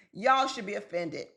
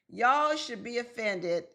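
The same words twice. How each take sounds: First: Said in the usual way. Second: "Y'all should be offended" slowed down, stressing y'all; slow emphatic repeat. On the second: Shown as a demonstration. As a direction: drag it out to drive the point home.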